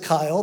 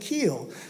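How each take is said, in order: First: The vowel sounds like the 'eye' sound. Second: The vowel sounds like the 'ee' sound. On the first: The speaker calls it wrong. "that's not how you pronounce it" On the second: The speaker calls it right. "It's actually Keel"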